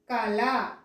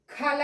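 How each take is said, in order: First: కళ begun with a plain k, as kala; no puff of air on the start of కళ; unaspirated k. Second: కళ begun with a breathy kh, as khala; wrongly aspirated. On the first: Teacher giving pupils the intended word, కళ unaspirated. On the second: Teacher showing what she isn't saying, కళ with aspirated k. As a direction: puff air on the first sound of కళ. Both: Shown as a demonstration. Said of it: "కళ అనట్లేదు నేను ఇక్కడ".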